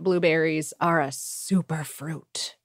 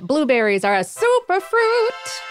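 First: The phrase is said in a menacing tone. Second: The phrase is said in a lighter tone. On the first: "Sounds kind of menacing when you say it like that" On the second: "should have been more that"

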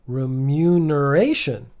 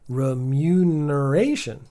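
First: The second syllable has a y sound. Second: The same.

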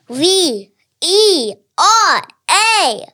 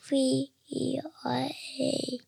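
First: It is said loudly. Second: It is said quietly.

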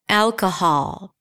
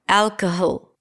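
First: The last syllable has a full, open 'ah' vowel. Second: The last syllable has a weak, reduced vowel. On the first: The speaker calls it right. "you need a vowel there, buddy. And in this case, it's the Oz and father" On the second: The speaker calls it wrong. "What happens if I reduce it?"

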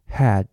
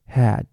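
First: The vowel is said with a wide open mouth. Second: The vowel is said with a wide open mouth.

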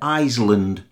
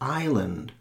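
First: The word is said with an S sound. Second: The word is said with no S sound. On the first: The speaker calls it wrong. "quite a few of our students pronounce the S in Isle and Island" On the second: The speaker calls it right. "It's a silent consonant"

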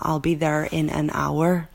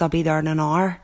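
First: It has a softened, toned-down Belfast accent. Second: It has a broad working-class Belfast accent. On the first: "having to tone down my working class accent" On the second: "from home saying"

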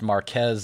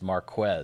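First: The 'qu' is said as a plain k sound. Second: The 'qu' is said as a kw sound. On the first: The speaker calls it wrong. "He hears his name pronounced Marquez all the time" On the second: The speaker calls it right. "no, it's Marquez. Got to hit that heavy Q. It's the Q-U, not the K"

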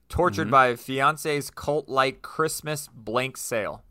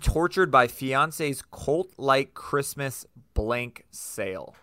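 First: The sentence is read very quickly. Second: The sentence is read slowly. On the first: The speaker calls it wrong. "I know I said that really fast" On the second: The speaker calls it right. "I'm going to slow down"

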